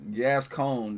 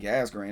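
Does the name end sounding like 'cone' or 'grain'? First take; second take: cone; grain. First: The name ends with a 'cone' sound. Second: The name ends with a 'grain'-like sound. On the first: This is how the spelling suggests it sounds. "That's what it looks like it's pronounced" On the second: This is how it is actually said in the song. "But that's crazy. It's like gas grain"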